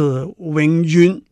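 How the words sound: The word is pronounced with Cantonese sounds. "因为在广东话那是永远"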